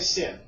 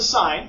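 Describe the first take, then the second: First: The word is said with a short 'ih' vowel. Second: The word is said with a long 'eye' vowel. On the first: The speaker calls it wrong. "notice I don't say sin. Don't say that. It's horrible" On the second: The speaker calls it right. "this is the sine"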